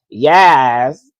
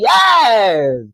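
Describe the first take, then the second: First: It is said flatly and bored. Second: It is said with lively excitement.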